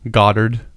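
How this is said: The name is said in an American way.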